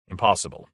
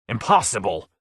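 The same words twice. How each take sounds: First: Said in the usual way. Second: A mocking, indignant echo of impossible; exasperated cry. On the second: A narrator's reading. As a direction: throw the word back angrily. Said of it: "cried Lord Fade".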